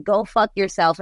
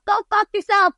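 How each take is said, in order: First: Said in the usual way. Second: High, loud shouted "Go fuck yourself"; yelled lyric. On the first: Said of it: "I'm saying". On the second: Retold or imitated. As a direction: belt the lyric out like a punk song. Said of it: "And the lyrics were like".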